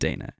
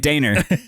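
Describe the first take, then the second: First: The name ends in a plain vowel, no R. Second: The name ends with an added R sound. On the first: The written R is dropped when spoken. "they pronounced it Dana. But it was spelled D A N E R" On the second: An R is added that is not written. "if you spelled it Dana, you would say Daner"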